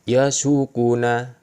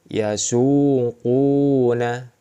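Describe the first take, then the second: First: The vowel is kept short. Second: The vowel is held long. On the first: "Pasti tidak dibaca panjang" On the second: "Ini ada semua. Dhamma, waw sukun"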